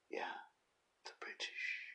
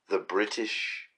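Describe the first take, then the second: First: Breathy stage whisper of the British; whispered aside. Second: Said in the usual way. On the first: Shown as a demonstration. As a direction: hush it like a secret, "the British" under the breath. Echoes the answer in a whisper.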